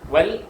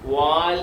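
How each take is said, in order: First: The vowel is short. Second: The vowel is drawn out long. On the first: The speaker calls it right. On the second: The speaker calls it wrong.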